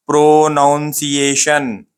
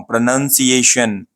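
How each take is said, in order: First: "प्रोनाउंसिएशन" very slowly, pro-noun-see-ay-shun; broken-up wrong pronunciation. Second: "प्रोनाउंसिएशन" said pruh-nun-see-ay-shun, slowly, joined up; correct pronunciation. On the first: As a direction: break "प्रोनाउंसिएशन" into stretched pieces with "noun". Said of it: "ऐसा नहीं पढ़ना है आपको words को तोड़ के". ("प्रोनाउंसिएशन" को तोड़-तोड़ के बोलें) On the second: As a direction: model "प्रोनाउंसिएशन" as one word with "nun". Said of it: "देखो मैं कैसे अल्फाजों को प्रोनाउंस कर रहा हूँ". ("प्रोनाउंसिएशन" में "नन", धीरे और जोड़कर) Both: Shown as a demonstration.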